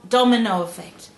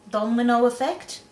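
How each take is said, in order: First: DOMINO said properly as "dom-in-oh", falling; "domino" put right, stated not asked; corrected pronunciation. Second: DOMINO said slightly off, rising as a question; mispronounced, questioning. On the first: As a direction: land firmly on "domino" without the stray L. Correcting her own mispronounced word. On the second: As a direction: say "Domino" with a stray L, "dolmino", unsure. Checking her own mispronounced word. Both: Acted.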